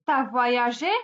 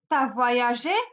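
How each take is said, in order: First: The vowel of 'tu' is dropped completely. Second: The same.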